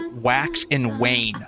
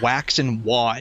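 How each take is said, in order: First: The last word sounds like 'wain'. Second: The last word sounds like 'wan'. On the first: The speaker calls it right. "I actually figured out how to say wax and wane" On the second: The speaker calls it wrong. "I always said it wax and wan"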